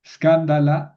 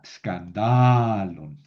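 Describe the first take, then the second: First: Escándala high and loud, accent on CAN; stress on third-last syllable. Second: Escandalon with a long, slow accented DA; stress moved to DA. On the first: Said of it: "Qué pasa con el plural". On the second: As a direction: stretch the DA of escandalon right out. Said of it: "Moví el acento". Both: Shown as a demonstration.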